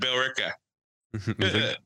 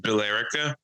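First: It is said in a local Irish-Boston accent. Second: It is said in a plain, unaccented way. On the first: "these shitty Irish guys with their accents" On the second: "I pronounce it as Billerica"

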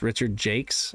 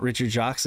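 First: The surname sounds like the word jakes. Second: The surname sounds like French Jacques. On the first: The speaker calls it right. "it's Richard Jakes" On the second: The speaker calls it wrong. "I've been saying it wrong my whole life"

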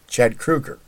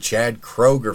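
First: The surname does not sound like Kroger. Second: The surname sounds like the store name Kroger. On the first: The speaker calls it right. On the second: The speaker calls it wrong.

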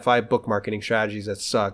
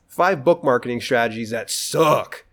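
First: It is said casually, without strong emphasis. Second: It is said with strong, forceful emphasis. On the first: The strategies are merely weak. The speaker calls it wrong. "It's not just like" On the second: The strategies are truly worthless and not worth any time. The speaker calls it right. "the reason why I have to put emphasis on this"

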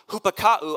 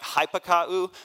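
First: The first vowel sounds like 'oo'. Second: The first vowel sounds like 'ih'. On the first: The speaker calls it right. "in the Greek, the Y is pronounced like a U" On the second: The speaker calls it wrong. "I know it looks like hypakau"

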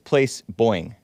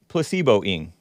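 First: It sounds like place followed by boying. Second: It sounds like the word placebo plus ing. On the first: The speaker calls it right. "But it's Place Boying" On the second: The speaker calls it wrong. "I used to think it was placebo-ing"

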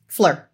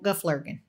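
First: The word is cut short to one syllable. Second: The whole word is said clearly in full. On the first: The speaker calls it wrong. "maybe it's coming out flir" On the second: The speaker calls it right. "I'm using geflirgen"

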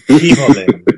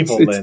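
First: It is said in a Stewie impression. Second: It is said in his normal voice.

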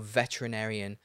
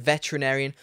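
First: The word is said with an extra syllable added. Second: The word is said without the extra syllable.

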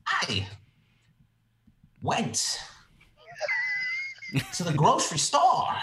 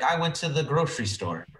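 First: It is drawn out slowly like a monologue. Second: It is said at a normal quick pace.

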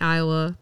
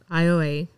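First: The name is said the usual state way. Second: The name is said the local Louisiana way. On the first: "spelled like Iowa" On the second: "that's how they pronounce it"

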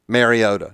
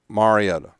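First: The first syllable does not sound like 'mar'. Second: The first syllable sounds like 'mar'. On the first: The speaker calls it wrong. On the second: The speaker calls it right. "So it's Mar, like Mar-a-Lago"

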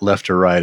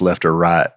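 First: It is said in a plain, standard accent. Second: It is said in a strong Southern accent. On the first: "It's not" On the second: "one of the most incredible Southern accents"

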